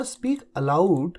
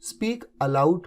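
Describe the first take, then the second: First: Slow, every word spelled out; slow dictation. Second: Said in the usual way. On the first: Shown as a demonstration. Teacher to Hindi students, slow clear dictation. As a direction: say speak aloud slowly for students to copy. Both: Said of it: "अब जैसे ऊंचा बोलो".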